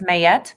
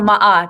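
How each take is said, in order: First: The first vowel is an 'ay' sound. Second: The first vowel is an 'ah' sound.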